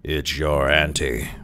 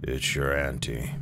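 First: Slow, drawn-out restrained howl; ferocious howl. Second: Lower, softer, cold sepulchral voice; cave-deep solemn. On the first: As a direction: howl it slowly with a touch of ferocity. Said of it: "His voice arose to a howl of ferocity". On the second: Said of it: "a true voice from a cave, cold, solemn, and damp". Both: A narrator's reading.

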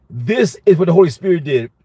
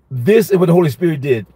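Both takes have the same delivery.

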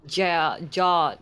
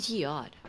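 First: GEODE said as one syllable, "jawd"; unsure mispronunciation. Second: "geode" in two syllables, JEE-od; corrected pronunciation. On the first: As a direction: run GEODE together into "jawd", groping for it. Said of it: "how to say". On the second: Player repeats friend's correction, "geode" as JEE-od. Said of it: "is it really pronounced as geode". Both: Real, not acted.

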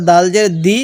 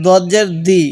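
First: Thin, plain d in "দাল" and "দি"; light dal. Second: Thick, rounded d in "দদ" and "দি"; heavy dad. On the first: Teacher contrasts dal with dad, light d in "দাল জের দি". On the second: Teacher contrasts dad with dal, heavy d in "দদ জের দি". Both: Shown as a demonstration. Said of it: "অনেকটাই পার্থক্য উচ্চারণের মধ্যে".

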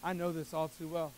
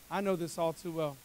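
Both takes have the same delivery.

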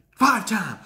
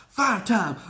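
Both takes have the same delivery.

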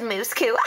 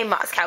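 First: Moscow mispronounced as "Mooscoo"; mimicked Russian pronunciation. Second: Said in the usual way. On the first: Girl mocking how the photographer says it, Moscow as "Mooscoo". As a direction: say Moscow with oo in both syllables. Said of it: "but she says Moscow". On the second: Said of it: "She's trying to say Moscow".

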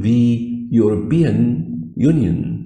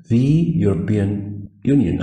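First: Slow, careful English; teacher modelling; slow demo reading. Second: Slow careful repeat. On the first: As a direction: lay out each word slowly. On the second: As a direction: model it again slowly. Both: Shown as a demonstration. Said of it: "فلازم أقول the".

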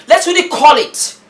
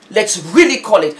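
First: High, loud Let's really call it; high emphatic call. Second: Said in the usual way. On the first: Real, not acted. Vlogger demanding honesty, high and loud. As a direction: push it up and out.

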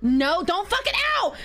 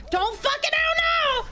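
First: Raised plea climbing at the end; first burst of alarm; panicked warning. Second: High, sustained shouted plea; desperate high-pitched command; panicked screaming. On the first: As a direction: yell a warning at the ball. Begging the ball. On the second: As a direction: scream it high all the way through. Begging the ball again, higher. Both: Real, not acted.

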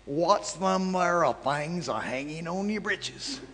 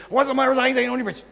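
First: Slow, each word drawn out and spelled clear; slowed-down repeat. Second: Fast, high, slurred run-together words; rushed drawl imitation. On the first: Retold or imitated. Retelling the stranger's question slowly, word by word. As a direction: say it again slowly so it can be understood. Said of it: "Slow down". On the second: Imitating the stranger's garbled question at the airport, rapid and slurred. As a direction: imitate him gabbling it all as one fast slur. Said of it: "this is exactly the way he said it".

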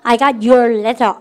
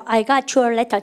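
First: Slow dictation. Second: Said in the usual way. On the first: Shown as a demonstration. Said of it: "시작". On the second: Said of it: "여러분 해보세요".

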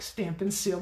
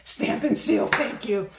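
First: Said in the usual way. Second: Loud high burst of recall; excited. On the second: Real, not acted. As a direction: blurt it out, finally remembered. Remembering the product name.

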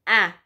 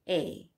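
First: "A" as a short, open "a" like in apple; short A sound. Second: "A" said as the long letter name "ay"; long A sound. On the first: Teacher giving pupils the short sound of A. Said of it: "The short sound of the letter A". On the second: Teacher giving the long sound of the letter A. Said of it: "That means it's a long sound". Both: Shown as a demonstration.

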